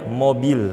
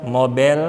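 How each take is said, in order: First: MOBIL with a clear i, mo-bil; correct pronunciation demo. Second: MOBIL said as mo-bel, open e; wrong pronunciation demo. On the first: Teacher gives the real word, clear vowel demo. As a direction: say MOBIL with a pure i in the last syllable. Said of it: "Mobil nggak ada". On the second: Teacher quotes a wrong habit, mispronounced demo. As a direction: turn the i in MOBIL into an e. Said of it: "Ada orang Indonesia bilang". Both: Shown as a demonstration.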